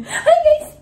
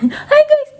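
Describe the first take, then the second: First: Very high squeaky "Hi guys"; baby-talk greeting. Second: Put-on very high, loud "Hi guys" in a baby voice; baby-talk greeting. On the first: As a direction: pitch it way up for the baby. Coaching baby. (napakataas na "Hi guys") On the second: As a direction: squeal it for the little one to copy. Coaching baby to greet viewers. (matinis at malakas na "Hi guys" para sa baby) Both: Shown as a demonstration.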